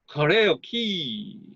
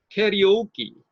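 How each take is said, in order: First: The stress falls on the second and fourth syllables. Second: The stress falls on the first and third syllables. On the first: The speaker calls it wrong. "약강약강으로 할 경우에는" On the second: The speaker calls it right. "강약 강약으로 할 경우는"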